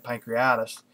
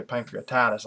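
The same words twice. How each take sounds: First: "pancreatitis" shortened to pan-kree-EYE-tis; speaker's usual pronunciation. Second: "pancreatitis" with the T sounded, ending TIE-tis; other people's pronunciation. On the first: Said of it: "I usually say it". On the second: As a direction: give "pancreatitis" its full "-titis" ending. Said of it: "some people say pancreatitis". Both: Shown as a demonstration.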